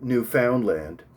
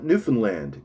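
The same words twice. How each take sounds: First: Every syllable is said just as spelled. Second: It is said the way locals say it. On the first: The speaker calls it wrong. "Although this is how it is spelt" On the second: The speaker calls it right. "Just call it Newfoundland"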